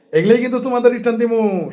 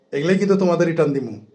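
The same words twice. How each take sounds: First: "এগুলোই কিন্তু তোমাদের রিটার্ন দিমু" said again much higher, opening on a hard "এগুলোই"; stern warning repeated with force; emphatic repeat. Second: Said in the usual way. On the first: Shown as a demonstration. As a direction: hammer the threat home the second time, pitch up. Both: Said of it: "repeats line with more force".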